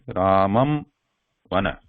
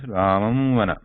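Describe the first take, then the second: First: A break after the first word, with a full m. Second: Both words run together, with a nasal hum. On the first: "after Ramam, I am taking a break... lips are completely closing" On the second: "I am pronouncing these first word and the second word together"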